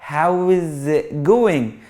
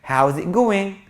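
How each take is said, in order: First: Every word is full, final g pronounced. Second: Words are contracted and the final g dropped.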